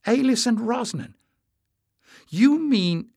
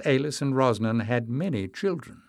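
First: Surprised realisation. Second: Said in the usual way. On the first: A narrator's reading. Realising the old legend.

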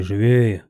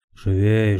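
First: Repeated louder, falling at the end; shouting orders. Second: Loud urging call to the rowers; shouting orders. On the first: Helmsman urges rowers on, louder repeated shout. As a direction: push harder on the second call. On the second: Helmsman urges rowers on, loud call. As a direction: hurry the crew with a raised voice. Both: A narrator's reading. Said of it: "покрикивал Йодор".

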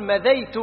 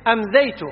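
First: مذيت as ma-dhay-tu; correct form without hamza. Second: أمذيت as am-dhay-tu in a questioner's words; wrong form with hamza. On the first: Shown as a demonstration. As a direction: start مذيت straight on M, no a-. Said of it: "الصواب أن يقول". (نطق مذيت بلا همزة في أولها) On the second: Acted. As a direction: begin أمذيت on a glottal AM-. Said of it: "هذا غلط لغة". (نطق أمذيت بهمزة زائدة في أولها)

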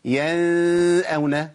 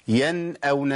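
First: ينأون with the n stretched into a long nasal hum; overlong, hidden nun in ينأون; wrong ikhfa. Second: ينأون with a short, clearly released n before the hamza; plain short nun in ينأون; clear izhar. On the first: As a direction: hum on the n of ينأون before the hamza. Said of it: "لأن كده عملت إخفاء". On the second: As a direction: say the n of ينأون crisply, no held hum. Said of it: "بتظهر عندهم". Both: Shown as a demonstration.

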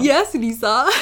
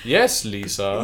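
First: A lightly stilted "Yes, Lisa" with a small rise on "Yes"; a light, half-hearted copy of the Tommy Wiseau line; Tommy Wiseau impression. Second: A stilted, deliberate "Yes, Lisa" with a high lift on "Yes"; a playful nod to The Room's Lisa line; Tommy Wiseau impression. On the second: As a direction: lightly mimic Tommy Wiseau's odd, stilted delivery. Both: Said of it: "the way Tommy Wiseau saying it".

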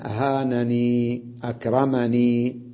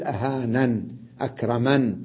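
First: Slow أهانني and أكرمني, each held on ee; pause on silent ya. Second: أهانن and أكرمن each closed on n; stop on n. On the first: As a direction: draw out the final ee of أهانني and أكرمني. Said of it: "من يقف عليها بالياء ساكنة". (وقف بالياء الساكنة) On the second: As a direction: drop the final ee of أهانن and أكرمن. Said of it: "فوقف عليه بالسكون فيقول". (وقف بالسكون على النون) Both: Shown as a demonstration.

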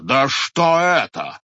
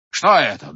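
First: Loud, slow, drawn-out indignation; slower outraged repeat. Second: Indignant. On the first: Head repeating his outrage at the watchmen, slow and loud. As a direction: drag it out in outrage. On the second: Head berates villagers. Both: A narrator's reading.

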